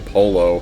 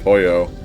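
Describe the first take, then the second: First: It is said with an English-style pronunciation. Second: It is said with a Spanish-style pronunciation. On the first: The speaker calls it wrong. "whenever I hear somebody say polo instead of" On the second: The speaker calls it right. "instead of pollo"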